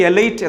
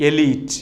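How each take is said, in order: First: എലൈറ്റ് with a diphthong in "lite"; common mispronunciation. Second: എലീറ്റ് with a long "lee"; correct pronunciation. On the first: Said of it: "നമ്മൾ ഉച്ചരിക്കുന്നത്". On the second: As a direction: say എലീറ്റ് as "e-LEET". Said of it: "കൃത്യമായ ഉച്ചാരണം". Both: Shown as a demonstration.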